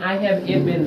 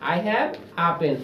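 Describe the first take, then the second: First: The article is said as 'ay'. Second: The article is said as 'uh'. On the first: The speaker calls it wrong. "এখানে I have এ pen না" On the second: The speaker calls it right. "এখানে হবে I have আ pen"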